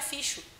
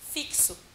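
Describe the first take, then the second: First: The middle consonant is a 'sh' sound. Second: The middle consonant is not a 'sh' sound. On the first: The speaker calls it wrong. "para ela o X tem som de chá" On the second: The speaker calls it right. "na verdade, se pronuncia assim"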